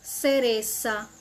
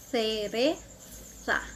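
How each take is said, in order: First: The z is said as an s sound. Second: The z is said as a th sound. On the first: "Na Argentina" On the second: "Na Espanha"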